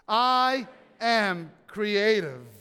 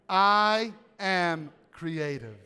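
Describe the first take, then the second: First: It is said with raised, passionate energy. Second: It is said sincerely at a moderate energy. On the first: The speaker feels strongly about it. "now with a little passion" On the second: The speaker truly means it. "now let's say it with authenticity"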